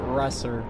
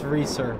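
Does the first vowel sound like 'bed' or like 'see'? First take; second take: bed; see. First: The first vowel is short, as in 'bed'. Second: The first vowel is long, as in 'see'. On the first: This is how other people commonly say the name. The speaker calls it wrong. "People pronounce it Resser" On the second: This is the name's actual pronunciation. The speaker calls it right. "But it's Reeser"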